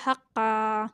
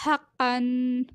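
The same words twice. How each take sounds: First: हक्का ending on a long open aa, no final n; हक्का with "qan" turned into "qaa"; pausal ending. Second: Said in the usual way. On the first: Shown as a demonstration. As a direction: stop on हक्का, stretching the last vowel. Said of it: "इसे पढ़ेंगे हक्का". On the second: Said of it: "वक्फ करेंगे".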